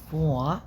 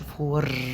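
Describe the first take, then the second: First: The final r sound is dropped. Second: The final r sound is pronounced. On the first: The speaker calls it right. "لا فوق منطقش الار" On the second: The speaker calls it wrong. "ما بنقولش فور"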